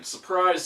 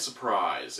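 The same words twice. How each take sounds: First: High, bright "surprise"; mock surprise. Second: Low, flat "surprise"; deadpan. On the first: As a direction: say "surprise" with a high, mocking lift. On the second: Acted. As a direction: drop "surprise" low and dry.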